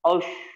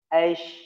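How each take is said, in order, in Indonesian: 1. Bunyi sh dibuat dengan bibir membulat. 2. Bunyi sh dibuat dengan tengah lidah dinaikkan. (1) "Tidak boleh" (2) "Ash tengahnya"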